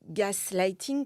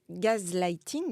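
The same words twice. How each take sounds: First: The first syllable has an English 'gas' sound. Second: The first syllable sounds like French 'gaz'. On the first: "en anglais, on dit gaslighting" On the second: "j'aime bien prononcer gaslighting euh, parce que gas en, en anglais, on fait, fait entendre le mot gaz"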